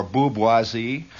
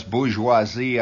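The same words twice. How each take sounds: First: "bourgeoisie" said slowly as "boob-wah-zee"; punning mispronunciation. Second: Said in the usual way. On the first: Shown as a demonstration. Joke twist on bourgeoisie.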